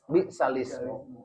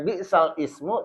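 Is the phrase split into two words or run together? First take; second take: run together; split. First: The phrase is run together as one word. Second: The phrase is split into two separate words. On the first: "dibaca bis, bisalismu" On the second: "yang harusnya bisal ismu"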